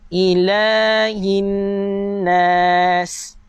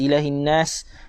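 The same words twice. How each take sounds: First: The vowel after 'il' is held long. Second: The vowel after 'il' is cut short. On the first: The speaker calls it right. "Sekali lagi saya baca" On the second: The speaker calls it wrong. "Dia baca pendek"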